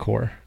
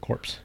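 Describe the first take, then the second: First: The final p and s are silent. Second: The final p and s are pronounced. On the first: The speaker calls it right. "it's Marine Corps" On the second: The speaker calls it wrong. "You don't say corpse"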